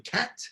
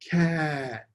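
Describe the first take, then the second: First: The word is said very quickly. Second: The word is said slowly and drawn out.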